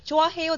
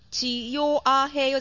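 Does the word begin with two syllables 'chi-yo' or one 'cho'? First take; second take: cho; chi-yo. First: It begins with one merged syllable, cho. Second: It begins with two separate syllables, chi and yo. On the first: The speaker calls it right. "ちょあへよですよね" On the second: The speaker calls it wrong. "ちよあへよじゃない"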